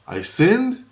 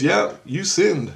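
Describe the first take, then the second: First: High rising question of disbelief; incredulous echo. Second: Slow, firm retold accusation; emphatic verdict. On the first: Retold or imitated. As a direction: throw it back as an astonished question. Retold echo of the accusation. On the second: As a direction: hand down the judgement, falling at the end. Retold accusation, then echoed back.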